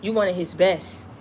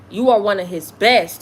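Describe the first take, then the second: First: Said in the usual way. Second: "are" hit louder with a falling tune; stress on are. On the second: Real, not acted. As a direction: lean hard on "are" to insist. Repeating the affirmation to listener.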